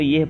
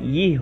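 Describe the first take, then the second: First: The word ends in a short 'ah' sound. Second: The word ends in a long 'e' vowel. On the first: "लेकिन हम इसको यह पढ़ेंगे" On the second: "ये होना चाहिए"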